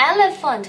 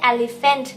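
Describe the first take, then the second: First: "Elephant" said as "EL-uh-funt", weak middle and ending; correct elephant. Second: "elephant" said as "el-li-FENT", with full vowels; mispronounced elephant. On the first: Mommy models for child, "Elephant" as "EL-uh-funt". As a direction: reduce the later vowels in "Elephant". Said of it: "Elephant ไม่ใช่ elephant". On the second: Mommy shows what not to say, "elephant" as "el-li-FENT". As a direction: give "elephant" a clear "li" and "fent". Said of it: "ไม่ใช่ elephant นะคะ". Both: Shown as a demonstration.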